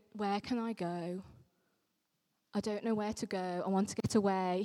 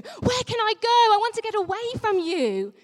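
First: Said in the usual way. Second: Much higher, louder cry of Where can I go; panicked. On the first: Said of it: "I don't read them that he's going". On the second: Shown as a demonstration. Vicar showing how David really cried out, panicked and loud. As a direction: blurt it out in panic, voice leaping up. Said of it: "I read those words in a, in a panic".

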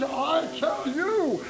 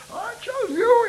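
First: Said in the usual way. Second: Mock divine voice, pitched much higher; imitating God's voice. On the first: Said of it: "it hit me like that". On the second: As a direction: echo how God said it to you, lifted high. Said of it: "never heard anybody speak like".

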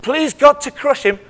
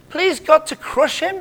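First: Please God to crush him, GOD stressed, falling; plain statement. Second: Please God to crush him? slower, GOD stressed, rising; incredulous question. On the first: Preacher reading the verse as a statement. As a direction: read it out flatly as fact. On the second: Preacher questioning the verse to the congregation. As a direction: ask it back in disbelief. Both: Shown as a demonstration. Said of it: "What on earth? Is this right?".

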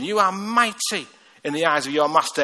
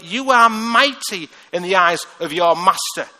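First: Said in the usual way. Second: "are" leaned on hard, each word slow and louder; slow emphatic declaration. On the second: Acted. Preacher telling the congregation they are mighty, slow and emphatic. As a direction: proclaim it slowly, pressing on "are".

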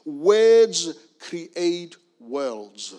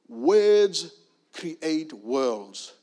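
The two takes are said the same way.

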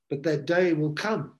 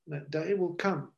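First: Said in the usual way. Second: That day will come repeated much softer; soft echo. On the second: Real, not acted. Preacher warning the congregation of judgment, hushed.

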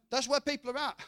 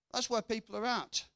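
First: Line said higher in a different timbre; higher knowing aside. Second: Said in the usual way. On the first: Shown as a demonstration. Preacher repeating his point to the congregation, altered higher voice. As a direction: toss it out in an altered voice.

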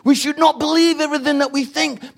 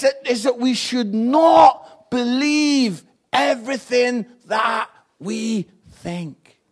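First: Loud but quicker restatement, "not" still leaned on; firm reminder at regular speed; repeated at normal pace. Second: Drawn-out, loud, slow preaching line with NOT hit hard; stress on NOT. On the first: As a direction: say it again straight, moving along. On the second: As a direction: lean on "not" and stretch the whole line. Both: Shown as a demonstration. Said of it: "I want you to understand this".

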